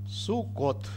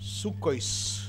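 First: The word ends with a 't' sound. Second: The word ends with an 'oys' sound.

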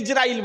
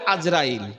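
First: The name begins with an 'i' sound. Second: The name begins with an 'a' sound. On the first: This is how the rest of the world says it. The speaker calls it right. "সারা পৃথিবীতে ইজরাইল বলে" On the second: This is how it is said locally in Bangladesh. The speaker calls it wrong. "এই বাংলাদেশে বলে আজরাইল"

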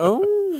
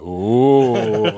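First: It is a high, camp, flamboyant ooh. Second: It is a low, spooky ghost-like ooh.

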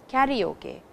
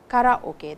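First: It is said with an English-style pronunciation. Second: It is said with a Japanese-style pronunciation. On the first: The speaker calls it wrong. "most of the time in English, when you say karaoke, which does not have any meaning in Japanese. please do not say karaoke" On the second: The speaker calls it right. "say karaoke. That's the correct pronunciation"

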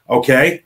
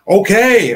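First: It is said flatly, without enthusiasm. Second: It is said brightly, with enthusiasm. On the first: The speaker calls it wrong. "don't sound so excited" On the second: The speaker calls it right. "Much better"

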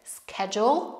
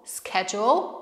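First: It is said in an American accent with sk. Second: The same.

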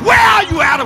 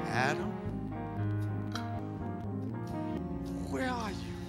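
First: It is said in a mean, harsh tone. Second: It is said in a kind, gentle tone.

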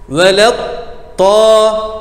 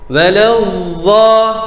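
First: The consonant sound is cut off completely. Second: The consonant sound is strongly buzzing. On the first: "Ses tamamen kesildiğinde yanlış olur" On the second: "Çok vızıltılı olursa o da yanlış olur"

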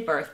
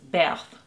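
First: The name is said with an American accent. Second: The name is said with a French accent.

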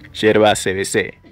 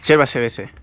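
First: It is said in a put-on announcer voice. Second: It is said in his normal voice.

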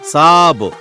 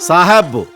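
First: The word is short, with no middle h sound. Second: The word has two syllables with an h between. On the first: "sir అంటే సాబ్" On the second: "దాన్ని పలకాల్సింది సాహబ్"

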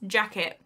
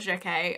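First: The word is said in a plain English accent. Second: The word is said with a French-like accent. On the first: The speaker calls it right. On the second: The speaker calls it wrong. "Don't know why I said that weird. I've got to stop pretending that I'm French"

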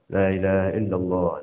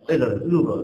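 First: It is said fast. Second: It is said very fast and unclearly.

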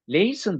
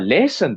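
First: The first vowel is a soft e. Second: The first vowel is an emphasized, open e. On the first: The listener writes the word with a plain e. The speaker calls it right. "E'nin yumuşadığını görür ve E olarak yazar" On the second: The listener writes the word with an ä. The speaker calls it wrong. "E vurgulanmış olarak çıktığında A umlaut olarak yazar"

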